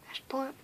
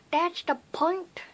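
First: Said in the usual way. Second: Drawn-out, higher weird voice; playful odd voice, slow and lifted. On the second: Pretend. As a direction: stretch it out in a silly rising voice. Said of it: "weird voices just 'cause I want to".

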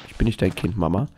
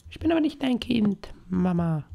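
First: Said in the usual way. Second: Put-on tiny, very high squeaky child voice; soft falsetto, pitched way up. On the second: Child telling mama it is not hers, squeaky child voice. Plays a child answering the mother.

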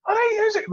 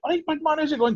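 First: Imitating Mo Farah. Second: Put-on Scottish accent. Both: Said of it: "obviously he didn't say it in a Scottish".

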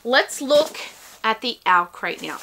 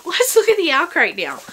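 First: Said in the usual way. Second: Retake through a laugh, a bit louder; giggling as she says it again. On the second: Shown as a demonstration.

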